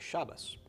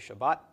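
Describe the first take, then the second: First: The word ends with an S sound. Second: The word ends with a T sound.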